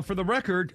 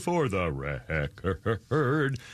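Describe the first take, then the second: First: Said in the usual way. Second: Very slow, low, wavering "record"; drawn-out emphasis. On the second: Pretend. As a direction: stretch "record" out into a long, low wobble. Mock-solemn repeat of the phrase.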